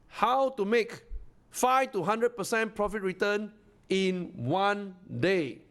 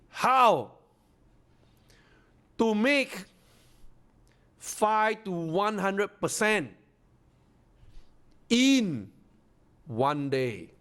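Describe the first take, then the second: First: It is said a little faster. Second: It is said at a normal pace.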